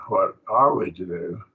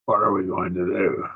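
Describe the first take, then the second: First: A doubtful question leaning on "are"; deliberating. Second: Said in the usual way. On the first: Shown as a demonstration. Teacher contrasting moods for the class, deliberating on "are". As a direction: weigh "What are we to do", stressing "are". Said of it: "And this is deliberating". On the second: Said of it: "That's a question in indicative".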